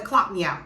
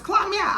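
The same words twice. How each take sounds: First: Said in the usual way. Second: Pitched high, taunting; rising taunt at the manager; heated dare. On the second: Retold or imitated. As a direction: throw "Clock me out" up high as a challenge. Repeated much higher.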